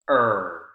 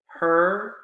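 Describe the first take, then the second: First: The word starts directly with the vowel. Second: The word starts with an audible H sound.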